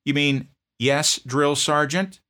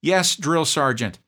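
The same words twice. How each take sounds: First: Loud, slow, higher bark; barked correction. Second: Much higher, slow, loud recruit answer; proper reply. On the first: Drill sergeant correcting a sloppy answer, slow bark. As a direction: drill each word into him. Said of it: "I barked back at him". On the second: Private answering correctly to his sergeant, high and slow. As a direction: sound off like a recruit. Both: Retold or imitated.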